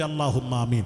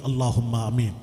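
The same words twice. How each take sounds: First: It is said even more loudly. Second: It is said loudly.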